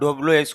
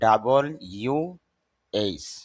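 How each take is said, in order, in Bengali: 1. W কে দুই সিল্যাবলে ছোট করে বলা হয়, 'dablu'। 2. W কে পুরোপুরি 'double u' হিসেবে বলা হয়। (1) "এটাকে আমরা ডব্লিউ এইচ কোয়েশ্চন বলি" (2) "শুদ্ধ উচ্চারণ হলো ডাবল ইউ এইচ"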